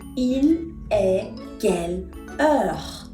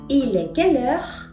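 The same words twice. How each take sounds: First: Each word is said separately, with small breaks. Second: The words run together without breaks between them. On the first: "Las palabras separaditas se dirían" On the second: "con la liaison, esto se pronuncia"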